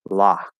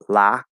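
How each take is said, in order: First: The vowel is a back unrounded ah. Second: The vowel is a fronted ah. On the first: This is the merged Western American way. "So I say lock" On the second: This is an unmerged way.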